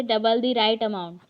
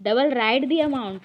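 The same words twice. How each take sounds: First: Spaced out slowly, word by word; slow dictation. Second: Slow and a little louder, word by word; slow wrong example. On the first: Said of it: "फिर next वैसे ही है". (धीरे धीरे शब्द बोलकर) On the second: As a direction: dictate the wrong order slowly. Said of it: "ये ऐसा sentence नहीं बनता". (गलत वाक्य धीरे धीरे) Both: Shown as a demonstration.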